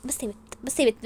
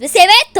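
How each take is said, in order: First: Softer, dismissive telling-off; dismissive hushing. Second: Loud, higher snap; angry shout. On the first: Wife tells rival to stop, softly dismissive. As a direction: brush her off under the voice. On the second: Wife shuts up her rival, snapping loudly. Tells rival to stop, louder. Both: Acted.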